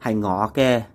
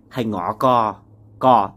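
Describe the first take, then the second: First: The final syllable ends in an 'e' vowel. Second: The final syllable ends in an 'a' vowel. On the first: "To say that's mine in Cantonese, you would say" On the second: "Chinese Vietnamese people would say hai ngó ga instead of ke"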